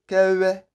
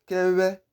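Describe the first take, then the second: No difference in how they are said.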